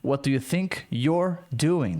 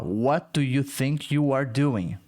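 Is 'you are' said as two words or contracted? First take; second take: contracted; two words. First: 'You are' is run together into 'you're'. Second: 'You are' is said as two full words. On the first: "Dá pra falar o you com ar, ficar you're" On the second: "Bem longa"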